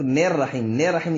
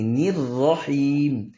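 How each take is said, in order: First: "نیر رحیم" with a wrong open "ne" vowel, quicker and unstretched; common mispronunciation. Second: "نیر رحیم" with a clean "ni" and very long held ee; correct pronunciation. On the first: Teacher mimics many people's mistake, wrong "ne" vowel. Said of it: "بہت سارے لوگ نیر رحیم، نیر رحیم نہیں". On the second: Teacher corrects many people's mistake, right slow recitation. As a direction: chant "نیر رحیم" very slowly, "ni" not "ne". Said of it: "نیر رحیم نہیں". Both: Shown as a demonstration.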